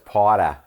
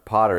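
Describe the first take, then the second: First: It is said in a Boston accent. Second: It is said in a plain, general American accent.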